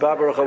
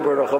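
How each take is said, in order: First: The word begins with a full 'ba' syllable. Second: The word begins with a reduced, short syllable. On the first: The speaker calls it right. "but Babarocha with a Patok" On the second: The speaker calls it wrong. "should not be Barocha"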